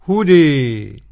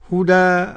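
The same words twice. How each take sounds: First: The final vowel is strongly raised toward 'ee'. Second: The final vowel is a fully open 'a'. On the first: "بالإمالة الكبرى الإمام حمزة" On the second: "قرأها بالفتح"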